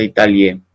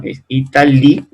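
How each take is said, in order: First: Italie said as i-ta-lie, final e sounded; the mistaken version of Italie; wrong pronunciation. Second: Italie as i-ta-li, silent final e, stress on li; the correct version of Italie; correct French. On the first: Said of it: "no se pronuncia". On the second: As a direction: Italie bien pronunciado. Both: Shown as a demonstration.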